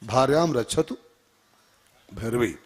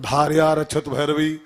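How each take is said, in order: First: The first word ends with a nasal m sound. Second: The first word ends without any m sound. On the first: The goddess is asked to protect the wife. The speaker calls it right. "भार्याम रक्षतु भैरवी का अर्थ होता है हमारी पत्नी की रक्षा भैरवी माता करें" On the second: The goddess is asked to devour the wife quickly. The speaker calls it wrong. "अंक की मात्रा भूल गए"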